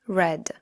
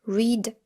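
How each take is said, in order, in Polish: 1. Wymawia się ją w formie przeszłej. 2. Wymawia się ją w formie podstawowej.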